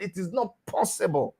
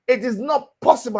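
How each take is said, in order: First: Said in the usual way. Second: "It is not possible" pushed harder and a little louder; emphatic repeat. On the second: Real, not acted. To the caller, driving the point home with emphasis.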